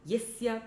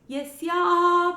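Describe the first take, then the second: First: The final vowel is short. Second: The final vowel is long. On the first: By whose grace mercy is received. "here the first yasya is short" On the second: Without whose grace there is no advancement. "The next yasya has a long ah at the end"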